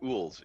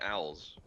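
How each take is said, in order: First: The vowel sounds like 'oo' in 'pool'. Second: The vowel sounds like 'ow' in 'cow'. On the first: "Why are you pronouncing owls as ools?" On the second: "You mean owls?"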